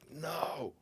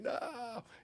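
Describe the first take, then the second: First: It is said flatly and firmly. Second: It is said sharply and sounds alarmed. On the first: It is a real refusal. "it's a no, you know, because it's a no" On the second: Something unexpected is happening. "it's like uh, what's happening"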